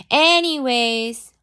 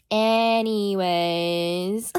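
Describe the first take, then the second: First: High, loud, stretched ANYWAYS; emphatic topic change. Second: ANYWAYS stretched very long, rising at the end; exaggerated drawn-out segue. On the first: Streamer getting back to her story, high emphatic Anyways. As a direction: punch ANYWAYS high and draw it out. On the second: Streamer comically returning to her story, very drawn-out Anyways. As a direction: drag ANYWAYS out absurdly slowly. Same word stretched further, then laughs. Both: Real, not acted.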